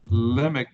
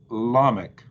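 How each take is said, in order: First: The stressed first vowel is short. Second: The stressed first vowel is long. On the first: The word is not at a pause in the verse. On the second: The word is at a pause in the verse.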